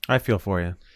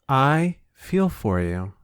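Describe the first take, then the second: First: It sounds flat and insincere. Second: It sounds warm and heartfelt. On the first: The sympathy is not really felt. The speaker calls it wrong. "That did not sound genuine at all" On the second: The sympathy is really felt. The speaker calls it right.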